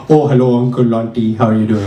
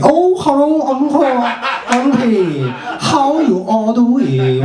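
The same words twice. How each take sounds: First: Light put-on Indian accent; polite mock Indian accent. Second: Put-on high, drawn-out Chinese accent; hammed-up Chinese accent, pitched way up and slow; mock Chinese accent. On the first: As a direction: greet elders in a mild Indian accent. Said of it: "I could go to India and be like". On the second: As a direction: greet elders in an exaggerated Chinese accent. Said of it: "like, China and be like".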